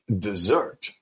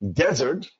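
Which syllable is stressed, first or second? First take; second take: second; first. First: The stress is on the second syllable. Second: The stress is on the first syllable. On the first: It is the verb meaning to abandon. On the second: It names a dry region like the Sahara.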